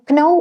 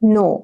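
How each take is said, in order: First: The word begins with a k sound. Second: The word begins with an n sound. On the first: The speaker calls it wrong. "ക്നോ എന്ന് പറയരുത്" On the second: The speaker calls it right. "ഇത് കെ നമ്മൾ ഉച്ചരിക്കില്ല"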